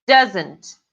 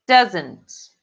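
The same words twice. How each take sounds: The two takes are said the same way.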